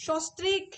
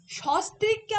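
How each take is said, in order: First: সস্ত্রীক starting with rounded "sho"; changed o vowel. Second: সস্ত্রীককে starting with open "shaw"; open first vowel. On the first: Teacher showing the spoken shift, সস্ত্রীক with "o". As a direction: say সস্ত্রীক as "shostrik". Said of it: "ও উচ্চারণ করে ফেলছি". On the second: Teacher reading the written form, সস্ত্রীককে with open "aw". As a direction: keep a wide "aw" in সস্ত্রীককে's first syllable. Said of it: "সস্ত্রীককে আমরা উচ্চারণ করি". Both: Shown as a demonstration.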